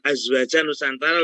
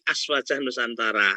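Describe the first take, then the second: First: The first word has a buzzing z sound. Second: The first word has a hissing s sound. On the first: The speaker calls it wrong. "Bukan Azwaja Nusantara loh ya" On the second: The speaker calls it right. "tapi Aswaja Nusantara"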